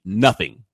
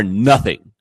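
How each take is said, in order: First: "nothing" repeated firmly with a falling close; repeated emphasis. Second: "nothing" hit hard and louder, falling; emphatic stress. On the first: Repeating himself to insist they are unlike Apu, firm "nothing". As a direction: restate "nothing" with weight. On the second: Talking about South Asians he knows, he hits "nothing" hard. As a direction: punch "nothing" to deny any likeness. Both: Real, not acted. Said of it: "I repeat".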